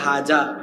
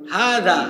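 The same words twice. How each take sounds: First: The middle consonant is a j sound. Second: The middle consonant is a soft th sound. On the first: The speaker calls it wrong. "এটা হবে হাজা" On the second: The speaker calls it right. "জিব্বার আগাকে দাঁতের আগায় লাগিয়ে হয়"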